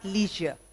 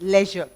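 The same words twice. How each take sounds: First: The first vowel sounds like 'ee'. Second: The first vowel sounds like 'ay'. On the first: The speaker calls it wrong. "It's not leisure" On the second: The speaker calls it right. "this pronunciation is of an A ... it's leisure, correctly"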